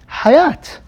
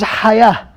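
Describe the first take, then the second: First: The word ends with a t sound. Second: The word ends with an h sound. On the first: "pronounce as a ta" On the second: "This is hayah"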